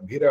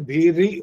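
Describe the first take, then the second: First: The 'ri' vowel is reduced to a short 'ruh'. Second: The 'ri' vowel is sounded clearly and fully. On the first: The speaker calls it wrong. "भीरी ही नहीं बोला, र बोला" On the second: The speaker calls it right. "जो री की जो sound आनी चाहिए थी ना"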